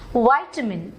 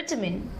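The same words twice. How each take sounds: First: The word is said in an American accent. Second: The word is said in a British accent. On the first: "This is American pronunciation of this word" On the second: "This is British pronunciation"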